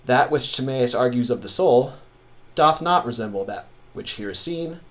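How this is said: It breaks at each verse line, pausing after "soul".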